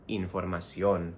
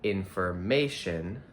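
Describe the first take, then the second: First: "información" said slowly with the final O stressed. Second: "information" with stress on the third syllable, -MA-; English stress. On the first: Teacher shows students the Spanish stress, slowly. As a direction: stress the last syllable -ÓN of "información". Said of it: "we have to stress the, um, O in". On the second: Teacher shows the English stress of "information" to students. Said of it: "even though in English we say". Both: Shown as a demonstration.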